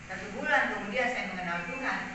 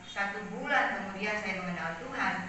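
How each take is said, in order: The two takes are said the same way.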